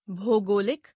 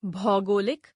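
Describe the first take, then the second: First: भौगोलिक with "o" for "au"; mispronounced. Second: Said in the usual way. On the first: Shown as a demonstration. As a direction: open भौगोलिक as "bhogolik". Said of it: "अशुद्ध". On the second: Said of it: "शुद्ध".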